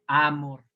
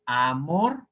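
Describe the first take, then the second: First: Amor as Á-mor, stress on the A; wrong-stress demo, amor with a strong first syllable. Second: Amor as a-MOR, rising on MOR; stress on last syllable. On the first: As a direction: punch the A of amor and drop mor. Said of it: "Ahora, en la primera". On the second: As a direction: lean on the final syllable of amor. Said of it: "se escucha mejor en mor". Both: Shown as a demonstration.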